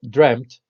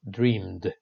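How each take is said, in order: First: The word ends with a t sound. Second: The word ends with a d sound. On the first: This is the British form. "the past participle dreamt" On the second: This is the American form. "Americans say dreamed"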